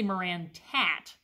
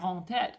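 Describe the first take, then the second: First: The name is said the southern Michigan way. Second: The name is said the French way. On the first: This is how the local people say it. "I say Marantette, which is a very southern Michigan pronunciation" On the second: This follows the name's French origin. "So it's a French, I mean, it should be Marantette, obviously"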